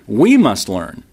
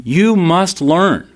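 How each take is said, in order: First: Said in the usual way. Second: Slow, stressed "you must learn"; preacher leans on "you", then corrects to "we". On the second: Shown as a demonstration.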